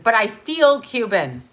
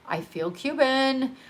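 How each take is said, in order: First: Said in the usual way. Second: Slower and softer, sincere; heartfelt. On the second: Real, not acted. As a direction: say it like a quiet confession. Slow, softer emphatic repeat.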